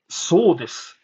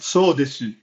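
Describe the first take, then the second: First: The final u vowel is dropped. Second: The final u vowel is clearly pronounced. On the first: The speaker calls it right. "which means that's right" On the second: The speaker calls it wrong. "I'm not saying that. the U is silent"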